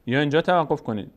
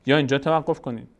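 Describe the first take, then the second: No difference in how they are said.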